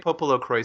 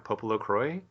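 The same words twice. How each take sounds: First: The final S of Croix is pronounced. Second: The final S of Croix is silent. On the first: This is the official pronunciation used in the game. "that's how they say it in the game" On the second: The name is read as if it were French. "Popolo Croix is what it sounds like to me"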